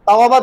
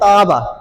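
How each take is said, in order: First: The middle has a w sound between vowels. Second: The middle has one long a vowel. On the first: "আগে একটু তাওয়াবা মানে বলতে একটু সময় লাগে" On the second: "একটু সহজ ভাবে"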